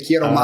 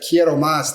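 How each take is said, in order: First: The final s of más is dropped. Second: The final s of más is pronounced.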